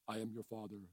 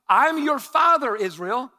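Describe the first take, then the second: First: It is said in a Darth Vader voice. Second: It is said in his normal voice.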